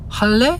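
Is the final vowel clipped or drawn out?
clipped. The final vowel is short, a plain question. This is how young people actually say it. The speaker calls it right. "라고 하지"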